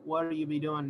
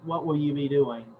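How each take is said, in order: First: The word will is contracted onto what. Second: The word will is said in full. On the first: The speaker calls it wrong. "Doesn't sound. It doesn't even flow off of my tongue easily" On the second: The speaker calls it right. "instead of saying what will you be doing"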